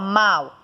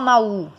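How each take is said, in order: First: The final U sound is weak, A dominates. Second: The final U sound is full and strong. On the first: The speaker calls it right. "você fala mal. Então, esse A tem um som muito mais forte que o U" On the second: The speaker calls it wrong. "Você não fala mal"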